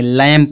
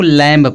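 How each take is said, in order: First: No b sound is heard after the m. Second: A b sound is heard after the m. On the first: The speaker calls it right. "बी silent होगा ना" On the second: The speaker calls it wrong. "कुछ लोग इसको लैम्प पढ़ते हैं"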